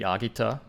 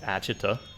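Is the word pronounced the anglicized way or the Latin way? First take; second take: Latin; anglicized. First: It is pronounced the original Latin way. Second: It is pronounced the anglicized English way. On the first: "the original would be Agita" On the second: "like Agita, probably"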